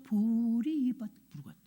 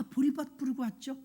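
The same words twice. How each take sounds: First: 보리밭 drawn out slowly, vowels held long; stretched 보리밭. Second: Said in the usual way. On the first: Retold or imitated. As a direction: stretch each syllable of 보리밭. Repeats the answer, stretching it. (보리밭을 길게 늘여서)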